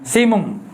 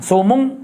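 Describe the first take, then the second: First: The first vowel is i. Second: The first vowel is u. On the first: "kasih mana simum" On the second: "Dhammah sing sumum"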